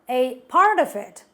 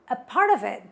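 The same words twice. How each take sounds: First: Each word is said separately with the T. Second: The words run together and the T drops. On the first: The speaker calls it wrong. "We don't say every word while talking. We don't say a part of it" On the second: The speaker calls it right. "They say a part of it. ... the letter T in the word part gets dropped"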